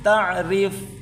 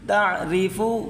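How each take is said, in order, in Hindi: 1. यह शब्द व्यंजन 'f' पर खत्म होता है। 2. यह शब्द छोटे 'u' स्वर पर खत्म होता है।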